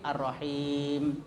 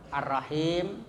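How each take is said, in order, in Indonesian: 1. Bunyi panjangnya ditahan agak panjang. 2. Bunyi panjangnya ditahan sedang. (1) "bisa juga agak panjang sedikit" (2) "Jadi bisa sedang ya"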